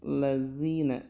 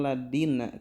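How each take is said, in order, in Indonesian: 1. Huruf konsonan tengahnya bunyi th yang lembut dan bersuara. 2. Huruf konsonan tengahnya bunyi d yang keras. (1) "Jadi harus lazina" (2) "Ini terkadang suka dibaca dal yang tidak pakai titik"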